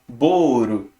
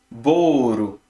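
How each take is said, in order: First: It is two syllables with an R-like sound. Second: The same.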